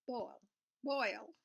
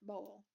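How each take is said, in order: First: "boil" with a clear oy vowel, not "bowl"; "boil" repeated as a separate, deliberate word; correcting pronunciation. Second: Southern "boil" that sounds like "bowl"; southern-accented "boil". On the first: Shown as a demonstration. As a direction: carefully attempt "boil" with an oy, twice. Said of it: "I didn't say bowl, I said". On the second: Real, not acted. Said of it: "accent till it comes up to a word like that".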